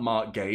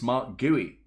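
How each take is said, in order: First: The surname sounds like the word 'gay'. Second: The surname does not sound like 'gay'. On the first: The speaker calls it wrong. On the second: The speaker calls it right. "it's Mark Gui"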